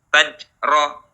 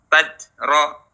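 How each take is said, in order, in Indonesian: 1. Konsonannya bunyi j. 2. Konsonannya bunyi j.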